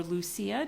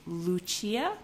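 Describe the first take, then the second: First: Lucia said the English way, "loo-SEE-uh". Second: Lucia said the Italian way, "loo-CHEE-ah". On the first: Offering viewers the other reading of the name, Lucia said the English way. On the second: Naming the yarn colorway for viewers, Lucia said the Italian way. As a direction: Lucia with a "ch" in the middle, stress on CHEE. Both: Shown as a demonstration. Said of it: "depending on if you wanna say it the Italian or English way".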